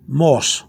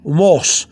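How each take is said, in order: First: "morse" with two blended O's; O pronounced twice. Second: "morse" with a single long O; one long O. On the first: Teacher showing learners the correction, double O in "morse". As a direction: sound a second O in "morse", mo-os. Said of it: "You're going morse". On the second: Teacher showing learners the mistake, one long O in "morse". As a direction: merge the O's into one long vowel in "morse". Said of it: "not making the, the two O's into one long O". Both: Shown as a demonstration.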